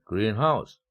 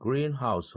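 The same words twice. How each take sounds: First: The main stress falls on house. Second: The main stress falls on green. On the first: A house that is green. "구강세를 적용해서 하나의 명사구로 본다면" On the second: A glass building for growing plants. "합성명사를 적용하면 온실입니다"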